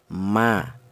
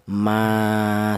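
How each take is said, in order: First: The vowel is held for one beat. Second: The vowel is held for two beats. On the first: "dibaca pendek, yaitu satu harokat atau satu ketukan" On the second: "maka dipanjangkan dua ketukan"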